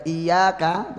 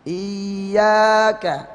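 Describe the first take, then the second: First: "iyyaka" with a single light y, no doubling; without tasydid. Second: "Iyyaka" held long, voice lifted on the doubled y; naber. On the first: Teacher showing the careless misreading, undoubled y. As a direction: glide through the y in "iyyaka" without lifting the voice. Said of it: "baca iyyaka tanpa tasdid". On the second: Teacher showing how to make tasydid firm, voice lifted. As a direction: raise and press the double y of "Iyyaka". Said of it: "suara diangkat waktu tasdidnya". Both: Shown as a demonstration.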